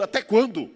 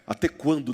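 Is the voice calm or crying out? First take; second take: crying out; calm. First: It is cried out with strong emotion. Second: It is said in a smooth, calm voice. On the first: The speaker calls it right. "Eles estavam clamando mesmo" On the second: The speaker calls it wrong. "não é dito com voz de frequência modulada"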